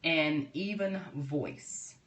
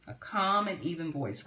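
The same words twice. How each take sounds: First: Slow, drawn-out calm delivery with a long pause; unhurried, even demo of calm speech. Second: Said in the usual way. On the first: Shown as a demonstration. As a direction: show the calm voice while naming it. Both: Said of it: "talk in a calm and even voice".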